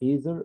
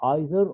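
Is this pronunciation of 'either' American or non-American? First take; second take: American; non-American. First: It is said the American way. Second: It is said in a non-American way.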